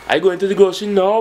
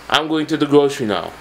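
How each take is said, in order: First: It is said in a Jamaican accent, rising. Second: It is said in a plain standard accent. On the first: "when you're speaking like a Jamaican, ... your voice is rising at the end" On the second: "If you're saying"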